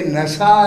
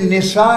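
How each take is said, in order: First: The first vowel is an 'a' sound. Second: The first vowel is an 'i' sound. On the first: The speaker calls it right. "ये नशा है" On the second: The speaker calls it wrong. "ये निशा नहीं है"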